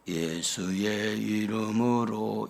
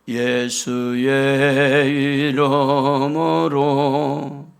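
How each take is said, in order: First: It is said quietly, with little voice. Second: It is said loudly, with strength from the belly. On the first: The speaker calls it wrong. "이렇게 하는 것보다" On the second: The speaker calls it right. "배에다 힘을 주고 예수의 이름으로 이렇게 조금 소리를 내는 게 좋아요"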